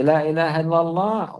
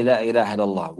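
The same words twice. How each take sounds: First: "La ilaha illallah" declared high and firm, each word weighted; said with emphasis. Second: Said in the usual way. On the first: Shown as a demonstration. Teacher to students, stressing the testimony firmly. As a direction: lean hard on "La ilaha illallah". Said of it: "one time here with emphasis". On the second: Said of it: "Why you say".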